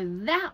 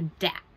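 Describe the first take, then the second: First: The word begins with a TH sound. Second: The word begins with a D sound.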